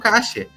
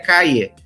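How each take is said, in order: First: The middle consonant is a hissing sh sound. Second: The middle consonant is a soft y-like sound. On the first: This is how it is said in Uruguay. "no Uruguai falam caixa, porque tem dois L's, então tem esse chiado aí no meio" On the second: This is the standard Spanish form. "de acordo com o espanhol verdadeiro, seria calle"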